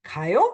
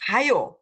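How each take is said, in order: First: 가요 rising at the end as a question; questioning tune. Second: 가요 as an order, high start then falling; command tune. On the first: Teacher shows the question "are you going", rising 가요. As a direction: ask 가요 with the final 요 going up. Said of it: "can be a statement. I'm going. 가요? Are you going?". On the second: Teacher shows the order form, commanding 가요. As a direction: stress the first syllable of 가요, drop on 요. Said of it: "this command or order form". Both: Shown as a demonstration.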